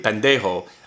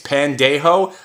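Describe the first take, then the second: First: The word is said quickly and run together. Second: The word is said slowly and carefully.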